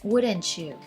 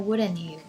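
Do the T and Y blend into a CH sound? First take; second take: yes; no. First: The T and Y blend into CH. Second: The T and Y stay separate. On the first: "The T and the Y sounds there is changed to the to the C H sound" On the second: "Or you can say"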